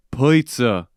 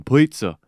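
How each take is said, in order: First: "Pizza," with a light Boston vowel; Boston accent. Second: Pizza as puts-uh, a light Boston touch; Boston accent. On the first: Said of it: "they're from Boston". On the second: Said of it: "That's how they say it". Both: Retold or imitated.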